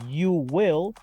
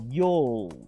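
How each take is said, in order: First: You and will are two separate full words. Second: You and will merge into one short syllable.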